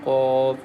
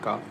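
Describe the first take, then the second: First: The q sound is thick and heavy. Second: The q sound is thin and light. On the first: The speaker calls it right. "very thick and heavy letter" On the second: The speaker calls it wrong. "Don't say"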